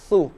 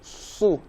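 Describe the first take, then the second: First: It sounds thin, with the jaw kept back. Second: It sounds thick, with the jaw pushed forward. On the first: The speaker calls it right. "tapi su" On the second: The speaker calls it wrong. "Jangan mengucapkan su"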